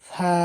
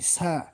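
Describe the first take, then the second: First: It begins with a soft th sound. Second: It begins with a plain s sound. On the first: The speaker calls it right. "আমরা পড়ব সা, অর্থাৎ এটার মাখরাজ হলো জিহবার আগা সামনের উপরের 2 দাঁতের আগার সঙ্গে লাগিয়ে" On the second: The speaker calls it wrong. "আমরা অনেকে সা পড়ি, সা, এটা আসলে ভুল উচ্চারণ"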